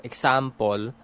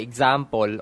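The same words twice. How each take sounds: First: "example" as "ek-sam-pol", rising; local sounds. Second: "example" as "eg-sam-pol", falling; local sounds. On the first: Demonstrating another local variant, "example" as "ek-sam-pol". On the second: Demonstrating rural Tagalog English, "example" as "eg-sam-pol". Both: Shown as a demonstration. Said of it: "I say".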